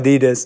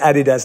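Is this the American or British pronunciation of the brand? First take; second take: American; British. First: It is said with an American-style pronunciation. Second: It is said with a London-style pronunciation. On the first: This is how Americans say it. The speaker calls it wrong. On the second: This is how people say it in London. The speaker calls it right. "as I say"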